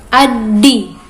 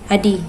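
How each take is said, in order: First: The d in the middle is held and doubled. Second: The d in the middle is short and single. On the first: "lebih ditekan lagi hurufnya" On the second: "Kalau tasydidnya hilang, berarti dibaca adi"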